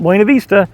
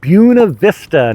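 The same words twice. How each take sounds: First: It uses the usual Spanish-style way of saying it. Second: It uses the local way of saying the name. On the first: The speaker calls it wrong. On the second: The speaker calls it right.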